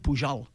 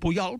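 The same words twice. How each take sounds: First: The middle consonant is a j-like hushing sound. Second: The middle consonant is a y-like glide. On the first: This is the general Catalan form of the name. "Si no, s'hauria dit pujol" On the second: This is the Pallars form of the name. "se deia pujol perquè era pallarès"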